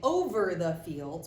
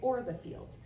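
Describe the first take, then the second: First: The word over keeps its v sound. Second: The word over loses its v sound. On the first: "instead of saying over the fields" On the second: "we're taking that V out"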